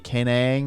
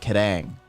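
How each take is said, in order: First: The middle consonant is an N sound. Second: The middle consonant is a D sound. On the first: "every every time I see Kanang" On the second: "whenever there's an N between two vowels, it makes a D sound"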